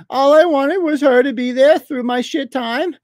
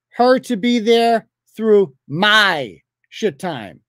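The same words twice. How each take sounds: First: High sneering whine on "All I wanted was her to be there through my shit time"; mocking whiny read. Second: "Her to be there through my shit time" dragged out slowly, each word weighed; slow pointed repeat. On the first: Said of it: "you're mocking". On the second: Shown as a demonstration. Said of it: "Notice what we've seen so far".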